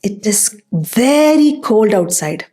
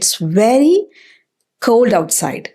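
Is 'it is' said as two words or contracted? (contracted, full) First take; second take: full; contracted. First: It is said as two separate words. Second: It is shortened into one syllable.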